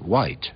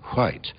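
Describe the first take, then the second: First: It starts with a plain w sound. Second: It starts with a breathy h before the w. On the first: This is how most people say it today. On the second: This is the older pronunciation.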